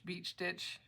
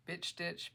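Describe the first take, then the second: First: "beach stitch" with a clear long ee in beach; corrected word. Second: "bitch stitch" with a short i instead of the long ee of beach; tongue slips, "bitch" comes out short like "bit". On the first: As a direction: fix the slip, stretch the ee in "beach". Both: Real, not acted. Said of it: "my mouth likes to throw words together".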